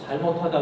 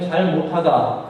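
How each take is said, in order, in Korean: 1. 쉬지 않고 한 단어처럼 발음해요. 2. '잘' 뒤에 짧게 쉬어요. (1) "실수했다라는 전혀 다른 의미" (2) "잘하지 못하다라는 뜻이고"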